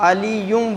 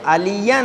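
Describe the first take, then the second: First: The word ends with a 'yum' sound. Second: The word ends with a 'yan' sound. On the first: The speaker calls it wrong. "कुछ इस पर भी गलती करते हैं" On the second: The speaker calls it right. "तो फिर ये अलियन है"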